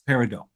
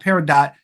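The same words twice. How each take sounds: First: The final T is left silent. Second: The final T is clearly pronounced. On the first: The speaker calls it right. "The T is silent" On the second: The speaker calls it wrong. "It's not peridot"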